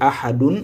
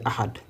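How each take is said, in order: First: The word ends with an added '-un' sound. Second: The word stops abruptly after the 'd'. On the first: The speaker calls it wrong. "Au lieu de dire ahadun" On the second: The speaker calls it right. "on va dire ahad"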